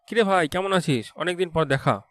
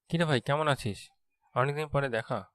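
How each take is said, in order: First: It is said in an excited tone. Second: It is said in an emotional tone.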